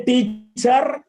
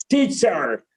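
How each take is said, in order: First: "teacher" split, with a heavy "char" and rising end; mispronunciation. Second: "teacher" lower and falling, in one piece; corrected pronunciation. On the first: Teacher warning against an error, mispronunciation. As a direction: break "teacher" into "teet-charr". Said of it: "Never say". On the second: Teacher modelling after the warning, corrected pronunciation. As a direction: say "teacher" smoothly with a light, falling ending. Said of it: "Never say teacher". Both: Shown as a demonstration.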